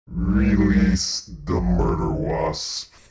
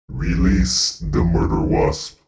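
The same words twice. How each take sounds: First: It is said at a slower pace. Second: It is said at a faster pace.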